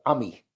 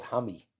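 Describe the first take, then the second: First: "Hammy" said as "Ammy", starting on the vowel; dropped H. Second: "Hammy" with the H sounded at the front; H pronounced. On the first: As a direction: leave the H off "Hammy". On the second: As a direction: say "Hammy" with a breath of H before the vowel. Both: Shown as a demonstration. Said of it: "they dropped the H as well".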